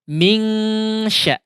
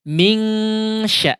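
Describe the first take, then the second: First: The n is a full, clear ng sound. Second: The same.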